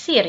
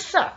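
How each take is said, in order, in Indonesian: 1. Kata itu diucapkan huruf demi huruf sesuai ejaannya. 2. Kata itu diucapkan dengan bunyi vokal bahasa Inggris. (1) "Jangan yes, sir ya"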